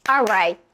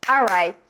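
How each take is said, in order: The two takes are said the same way.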